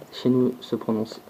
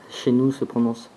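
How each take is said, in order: Both takes have the same delivery.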